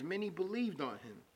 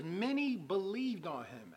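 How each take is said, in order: First: Said in the usual way. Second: "many believed on him" slow, "many" leaned on; slow emphasis. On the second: Real, not acted. Preacher reading the verse to viewers, slow emphasis.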